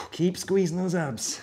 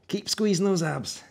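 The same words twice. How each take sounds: First: Slow coaching cue. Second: Said in the usual way. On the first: Shown as a demonstration.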